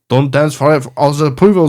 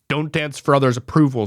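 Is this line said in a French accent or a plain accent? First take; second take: French accent; plain accent. First: It is read in a put-on French accent. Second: It is read in the speaker's plain accent.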